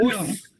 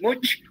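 First: The word ends in a long s sound. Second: The word ends in a ch sound. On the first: The speaker calls it right. "solamente con S, con una S bien alargada" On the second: The speaker calls it wrong. "no much, como diciendo mucho"

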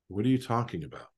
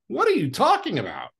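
First: It is said with small, subtle energy. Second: It is said with big, broad energy.

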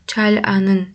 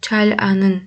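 First: Said slowly with a clear l sound. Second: The same.

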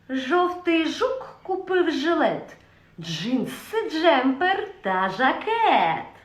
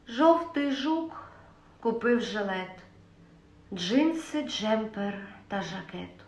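First: It is said in a sly voice. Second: It is said in a sad voice. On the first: "Наступна емоція – хитрість" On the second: "Наступна емоція – сум"

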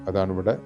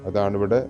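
Both takes have the same delivery.

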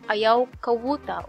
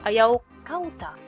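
First: A W sound comes before the ending. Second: No consonant comes before the ending. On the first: "People use interchangeable the L or W" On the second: "Sometimes you shorten the kawuta to kauta"

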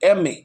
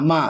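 First: Each letter name is said separately. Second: It is read as a single syllable. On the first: The speaker calls it right. "আমরা কীভাবে বলি না এম এ" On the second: The speaker calls it wrong. "আমরা কোনো এরকমভাবে বলি না যে মা মা"

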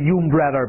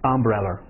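First: It begins with a 'yoo' sound. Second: It begins with a short 'uh' sound. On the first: The speaker calls it wrong. "你看就不是umbrella 吧" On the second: The speaker calls it right. "还有一个词变音了umbrella"

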